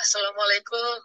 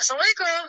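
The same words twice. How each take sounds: First: It is said in a pitiful, mournful way. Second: It is said in an excited, lively way.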